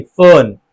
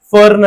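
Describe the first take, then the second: First: फर्न said as fən, no r; silent r demo. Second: फर्न with the r sounded; wrong take with R. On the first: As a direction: drop the r in फर्न. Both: Shown as a demonstration. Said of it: "फर्न नहीं".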